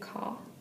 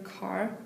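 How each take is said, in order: First: The final R sound is dropped. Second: The final R sound is pronounced.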